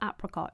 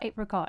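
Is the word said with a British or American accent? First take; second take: American; British. First: It is said with an American pronunciation. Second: It is said with an English pronunciation.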